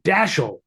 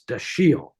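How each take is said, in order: First: The first syllable gets hard, heavy stress. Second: The first syllable gets no hard stress. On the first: The speaker calls it wrong. "with that hard emphasis on the dash" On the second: The speaker calls it right. "which is French"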